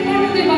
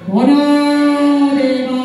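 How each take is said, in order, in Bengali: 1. নামটি সহজ, স্বাভাবিক ভাবে বলা হয়েছে। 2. নামটি ভুতুড়ে, ভয় দেখানোর ভঙ্গিতে বলা হয়েছে। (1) "যদি এভাবে বলতো" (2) "উদ্দেশ্যই হচ্ছে কুটিলাকে একটু ভয় পাইয়ে দেয়"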